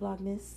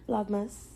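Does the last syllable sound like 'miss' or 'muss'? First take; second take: miss; muss. First: The last syllable sounds like 'miss'. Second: The last syllable sounds like 'muss'. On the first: The speaker calls it wrong. "not miss" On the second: The speaker calls it right. "It's must, not miss. Like Christmas"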